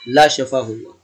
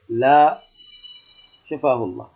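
First: All the words run together without a pause. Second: There is a pause after the first word. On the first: It sounds like a prayer against the person. "لو وصله وقال لا شفاه الله، فهذا أشد فسادا" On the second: The no answers the question before the prayer. "حتى في النطق سيقول لا شفاه الله، قد يكون كذا"

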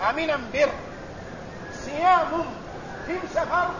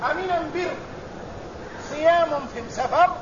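No difference in how they are said.

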